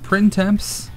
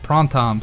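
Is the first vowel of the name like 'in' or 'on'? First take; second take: in; on. First: The first vowel sounds like 'in'. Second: The first vowel sounds like 'on'. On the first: The speaker calls it wrong. "it's not Printemps" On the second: The speaker calls it right. "but Prontom"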